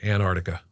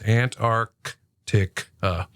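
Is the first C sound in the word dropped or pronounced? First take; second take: dropped; pronounced. First: The first hard C sound is left out. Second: Both hard C sounds are clearly pronounced. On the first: "We leave that first hard C out" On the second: "it is hard to say both of those hard C's"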